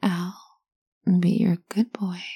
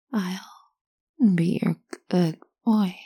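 First: Whispered mantra. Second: Half speed, voiced and drawn out; slow voiced mantra. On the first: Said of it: "you're going to repeat to yourself". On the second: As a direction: chant it slowly like a mantra. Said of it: "Start saying that". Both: Shown as a demonstration.

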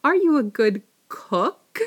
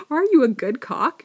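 First: "cook" said carefully with a short "oo"; slow, loud, deliberate "cook" with a rounded vowel; corrected "cook". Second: "cock" said with an open "ah" in place of cook; loud, high replay of the slip on "cock"; mispronounced "cock". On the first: Rereading the question after a slip, careful "cook". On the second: Repeating her misread question, "cock" with an open vowel. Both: Real, not acted. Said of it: "I think I started to say cock".

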